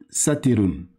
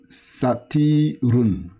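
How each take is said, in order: First: The middle vowel is kept short. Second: The middle vowel is drawn out long. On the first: The speaker calls it right. "C'est pas tiré" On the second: The speaker calls it wrong. "j'ai tiré le ti"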